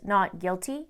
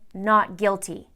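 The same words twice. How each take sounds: First: The voice rises at the end like a question. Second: The voice falls at the end like a statement. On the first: The speaker sounds unsure. "with an upward inflection in his voice ... like a question" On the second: The speaker sounds sure of himself. "instead of saying"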